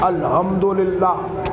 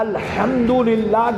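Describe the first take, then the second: First: The h sound is articulated weakly and softly. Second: The h sound is articulated strongly and precisely. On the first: The speaker calls it wrong. "ऐसे पढ़ते थे" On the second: This is the proper way to recite it. The speaker calls it right. "की जगह"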